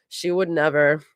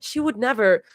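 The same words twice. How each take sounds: First: Flat repeat with a hint of sarcasm; slight sarcasm. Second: Said in the usual way. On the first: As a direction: echo it back, faintly mocking. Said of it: "a slight hint of sarcasm". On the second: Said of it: "Gina repeats".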